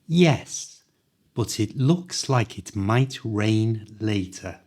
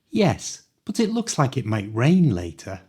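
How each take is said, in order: First: The sentence is spoken slowly and carefully. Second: The sentence is spoken at full natural speed.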